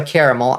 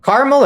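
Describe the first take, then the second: First: Caramel with all three syllables, CARE-uh-mel. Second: Caramel with the middle vowel dropped, CAR-mul; two-syllable caramel. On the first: Offering chat the other pronunciation, three-syllable caramel, CARE-uh-mel. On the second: Offering chat two pronunciations of caramel, two-syllable CAR-mul. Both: Shown as a demonstration. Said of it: "I say caramel".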